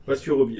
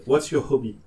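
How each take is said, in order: First: "hobby" again with the h dropped, "obby"; without the h. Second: "hobby" with no h sound, like "obby"; dropped h. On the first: The gynecologist's question repeated, "hobby" with no h. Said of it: "Sans le H aspiré". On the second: The gynecologist asking without the h, no h on "hobby". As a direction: say "What's your hobby ?" without any h on "hobby". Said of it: "elle a pas dit hobby". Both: Retold or imitated.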